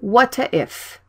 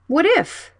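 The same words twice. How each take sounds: First: The two words are said with a break. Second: The final t links smoothly into the vowel. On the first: The speaker calls it wrong. "Don't say what if" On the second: The speaker calls it right. "Consonant and vowel blended"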